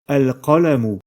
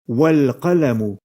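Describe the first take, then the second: First: The word starts with a short a vowel. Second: The l links directly to the preceding wa. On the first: The word begins the sentence. "en prononçant la voyelle fatha avant la lettre lam" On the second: The word follows another word. "on ne doit prononcer ici aucune voyelle au début du nom al-qalamu"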